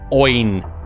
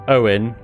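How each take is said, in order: First: The name is said like Oin. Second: The name is said like Owen. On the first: The speaker calls it wrong. "not Oin" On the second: The speaker calls it right. "you pronounce that Owen"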